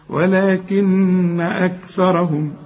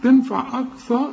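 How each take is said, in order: First: أكثرهم slow, the k and th kept light; slow careful recitation. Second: أكثر said higher, with a heavy k; mock the wrong heavy k; imitating a mistake. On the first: Shown as a demonstration. Teacher shows the right reading to the student. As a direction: recite it slowly and gently. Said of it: "ما نقولش أكثر". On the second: Teacher mimics the student's error. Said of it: "كلها خطأ كده".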